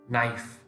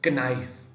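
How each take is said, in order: First: The k at the start is silent. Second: The k at the start is sounded. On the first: The speaker calls it right. "K silent. It's knife" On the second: The speaker calls it wrong. "Not knife"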